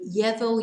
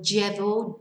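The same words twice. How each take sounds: First: The double L sounds like an English y. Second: The double L sounds like an English j. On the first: "you can say ye or j" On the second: "you can say ye or j"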